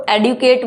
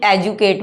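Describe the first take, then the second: First: एडुकेट with a d-y sound, "ed-yu-kate"; "ed-yu-kate" pronunciation. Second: एजुकेट with a j sound, "ej-u-kate"; "ej-u-kate" pronunciation. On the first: Teacher shows one accepted way, एडुकेट as "ed-yu-kate". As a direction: keep the d in एडुकेट, no j. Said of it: "कई लोग इसको एडुकेट बोलते हैं". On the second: Teacher shows the other accepted way, एजुकेट as "ej-u-kate". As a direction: turn the d into j in एजुकेट. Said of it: "कई एजुकेट बोलते हैं". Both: Shown as a demonstration.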